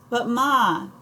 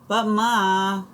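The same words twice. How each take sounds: First: High whiny plea; whining boy. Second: Put-on high, whiny kid's protest; childish whine at his mother; whining boy. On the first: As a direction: whine the protest again, sulkier. Boy protests to mother again. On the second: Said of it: "Kermit whines". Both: A narrator's reading.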